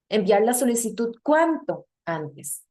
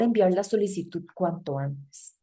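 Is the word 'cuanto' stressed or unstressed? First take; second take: stressed; unstressed. First: The word cuanto is stressed. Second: The word cuanto is unstressed. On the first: It sounds like an exclamation or question. The speaker calls it wrong. "No es tónico de exclamación" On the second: It means as soon as possible. The speaker calls it right. "Si yo lo pronuncio"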